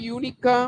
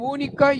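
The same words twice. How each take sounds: First: Said in the usual way. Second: ఊనికా begun with a pure "oo", no y-glide; wrong vowel onset. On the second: Shown as a demonstration. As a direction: say ఊనికా with "oo" in place of "yoo". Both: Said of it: "యూనిక్".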